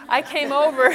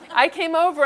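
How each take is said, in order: First: Said through a laugh; a giggle runs through the words. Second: Said in the usual way. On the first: Real, not acted. Laughs while retelling.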